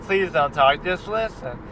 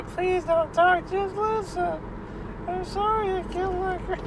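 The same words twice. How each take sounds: First: Said in the usual way. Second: Weepy killer imitation. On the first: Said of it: "Like, like". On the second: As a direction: whine it out like a tearful killer begging. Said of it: "imitation voice of the weepy voice killer".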